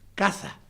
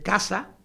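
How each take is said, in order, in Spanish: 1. La consonante del medio es un sonido ceceante, parecido a la th. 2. La consonante del medio es una s sibilante. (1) "lo que llaman ellos ceceo" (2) "casa normal"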